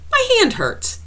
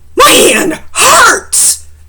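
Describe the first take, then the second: First: It is said calmly, like a plain statement. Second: It is said loudly, like an exclamation.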